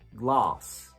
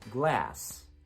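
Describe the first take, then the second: First: The vowel is a back, open ah sound. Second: The vowel is a front, open ah sound.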